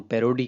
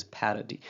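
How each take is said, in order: First: Said in the usual way. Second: पैरोडी said slowly and carefully, stress on the first syllable; exact pronunciation. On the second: Shown as a demonstration. Teacher showing students the exact पैरोडी, slow and careful. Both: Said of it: "exactly the pronunciation is".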